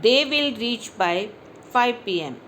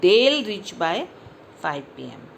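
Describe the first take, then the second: First: Both words are said in full. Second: The words are joined into one syllable. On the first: The speaker calls it wrong. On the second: The speaker calls it right.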